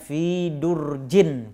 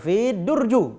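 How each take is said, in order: First: The noun ends with an -in sound. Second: The noun ends with an -u sound. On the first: The speaker calls it right. "fi durjin kalau dia tidak beralif lam" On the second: The speaker calls it wrong. "atau fi durju"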